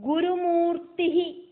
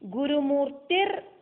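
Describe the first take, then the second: First: The word ends on a plain vowel, no r. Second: The word ends with an added r sound. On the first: The name stands alone. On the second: The name is joined to the next name.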